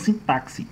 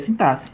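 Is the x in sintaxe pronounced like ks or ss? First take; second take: ks; ss. First: The x is pronounced as a ks sound. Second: The x is pronounced as a single s sound. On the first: The speaker calls it wrong. "e não sintaxe" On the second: The speaker calls it right. "a pronúncia correta da palavra sintaxe é sintaxe"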